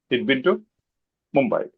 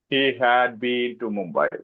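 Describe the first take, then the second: First: The words 'he had' are contracted to 'he'd'. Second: The words 'he had' are said in full. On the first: This is normal everyday communication. The speaker calls it right. "it is just he'd been to Mumbai" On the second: Grammar is stressed over natural speech. The speaker calls it wrong. "Indians will say"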